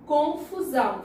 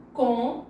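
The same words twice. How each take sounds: First: Said in the usual way. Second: "Confusão" split into con... fu... são; "Confusão" in separate beats, con, fu, são; syllable by syllable. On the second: Shown as a demonstration. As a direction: say "Confusão" as three syllables with pauses between. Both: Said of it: "separar as palavras".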